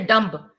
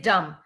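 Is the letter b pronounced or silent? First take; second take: pronounced; silent. First: The b sound is pronounced at the end. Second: The b sound is silent at the end. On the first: The speaker calls it wrong. "You don't say dumb" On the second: The speaker calls it right. "You say dumb"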